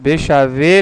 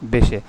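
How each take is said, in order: First: The word is said with three syllables. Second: The word is said with two syllables. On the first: The speaker calls it wrong. "लेकिन बेशावे बोलते नहीं है" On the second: The speaker calls it right. "क्या बोलते हैं?"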